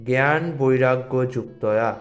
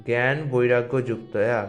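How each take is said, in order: No difference in how they are said.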